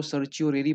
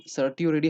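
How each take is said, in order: First: "सर्चियोरेरी" with a ch sound after the first syllable; others' pronunciation. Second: "सर्टियोरेरी" with a t sound after the first syllable; teacher's own pronunciation. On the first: Teacher showing how some people read the term, ch-sound pronunciation. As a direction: say "सर्चियोरेरी" with ch, not t. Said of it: "कुछ लोग इसको सर्चियोरेरी पढ़ते हैं". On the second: Teacher giving students the reading he prefers, t-sound pronunciation. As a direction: say "सर्टियोरेरी" with t, not ch. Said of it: "सर्टियोरेरी हम पढ़ते हैं". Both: Shown as a demonstration.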